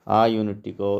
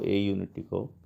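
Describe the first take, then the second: First: The article is said with an 'ah' vowel. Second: The article is said with an 'ay' vowel. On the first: The speaker calls it right. "इसका sound आ करते हैं" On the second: The speaker calls it wrong. "ए ना बोल करके आ बोलते हैं"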